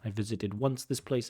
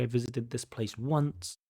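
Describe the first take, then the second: First: Said in the usual way. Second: "once" placed last with a rising finish; teacher giving the corrected word order; correct version. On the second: Shown as a demonstration. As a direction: model the right order, lifting "once". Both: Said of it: "Again, word order should be".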